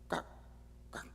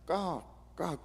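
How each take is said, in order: First: The calls are clipped and short. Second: The calls are drawn out and long. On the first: This is how a magpie calls. "되게 단음으로" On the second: This is how a crow caws. "이렇게 장음이면"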